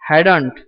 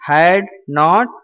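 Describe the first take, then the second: First: The words are squeezed into a shortened form. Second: Each word is said fully and separately.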